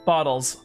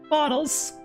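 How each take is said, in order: First: It is said in the speaker's normal voice. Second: It is said in an imitation of Sayori's voice.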